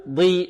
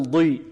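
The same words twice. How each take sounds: First: First ضي too light, close to "di"; ضي without its emphatic quality; thinned daad. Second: Corrected ضي, heavy, toward "dwi"; heavy, thickened ضي; emphatic daad. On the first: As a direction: demonstrate the faulty light ضي. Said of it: "لا نقول ضي". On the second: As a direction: model ضي with full itbaq. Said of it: "وإنما نقول ضي". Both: Shown as a demonstration.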